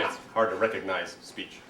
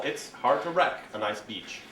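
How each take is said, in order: First: Said in the usual way. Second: Misheard phrase. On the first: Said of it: "I mean". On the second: Shown as a demonstration. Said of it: "deal with mondegreens and the chaos".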